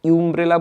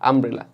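First: The word begins with a 'yoo' sound. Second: The word begins with an 'uh' sound. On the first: The speaker calls it wrong. "আমরা কি ইউমব্রেলা বলি, ইউমব্রেলা বলি না" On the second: The speaker calls it right. "আমরা কি আমব্রেলা বলি"

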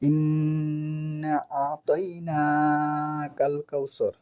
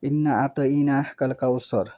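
First: The nn is nasalized and held a little longer. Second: The nn is short and plain, without nasal hold. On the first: The speaker calls it right. "ইন্না গুন্না করতে হবে।" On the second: The speaker calls it wrong. "এটা ভুল।"

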